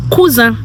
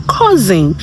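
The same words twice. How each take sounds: First: "cousin" as "koo-zah", nasal ending, no n; French "cousin", higher than the English word; French pronunciation. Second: Said in the usual way. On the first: Shown as a demonstration. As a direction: say "cousin" the French way, stressed on the last syllable. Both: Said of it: "how do you say cousin".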